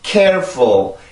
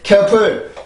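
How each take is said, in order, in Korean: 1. 첫 음절에 강세를 주면 강약 리듬이 생겨요. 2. 두 음절을 강세 없이 고르게 발음해요. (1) "리듬을 타고 강세 때문에 리듬이 생겨나는 거죠" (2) "절대 careful, careful, careful, careful 이렇게 만들어지는 소리가 아니라"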